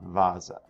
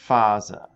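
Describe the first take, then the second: First: The word begins with a V sound. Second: The word begins with an F sound. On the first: The speaker calls it wrong. "not Vasa" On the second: The speaker calls it right. "So it should be Faser"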